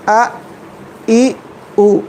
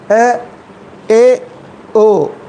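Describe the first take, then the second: First: The vowels are sounded as pure a, i, u. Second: The vowels are sounded as bent e, e, o. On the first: The speaker calls it right. "जैसे आ ई उ" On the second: The speaker calls it wrong. "ये बिल्कुल गलत है"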